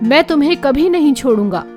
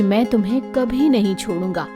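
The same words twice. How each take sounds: First: It is said in an angry, harsh tone. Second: It is said in a warm, loving tone. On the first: "और वही शब्द किसी को क्रोध से कहो" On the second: "अगर किसी को प्यार से कहो"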